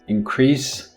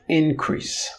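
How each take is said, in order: First: The stress is on the second syllable. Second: The stress is on the first syllable. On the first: The word is used as a verb. "If you put the stress on the second syllable, it becomes a verb" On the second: The word is used as a noun. "If you put the stress on the first syllable, it becomes a noun"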